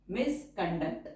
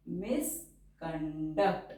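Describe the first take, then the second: First: Said in the usual way. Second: Stretched out, syllable by syllable; slow dictation. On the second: Shown as a demonstration. Teacher dictating a shorthand word to the class, slowly. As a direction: say it slowly for writing along.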